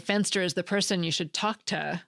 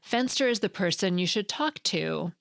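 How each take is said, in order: First: The final word 'to' is reduced to 'ta'. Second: The final word 'to' is said in full. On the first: The speaker calls it wrong. "It just sounds funny to say" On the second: The speaker calls it right. "but not in a sentence like"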